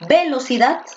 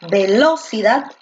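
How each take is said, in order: First: The stress is on the first syllable. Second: The stress is on the second syllable.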